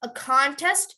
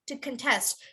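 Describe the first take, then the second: First: The stress is on the first syllable. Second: The stress is on the second syllable.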